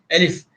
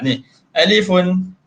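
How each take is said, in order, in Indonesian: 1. Kata ini berakhir dengan konsonan mati. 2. Kata ini berakhir dengan tambahan bunyi -un.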